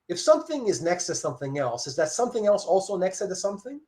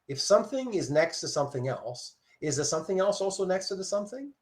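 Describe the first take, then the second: First: It is said at normal speed. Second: It is said slowly.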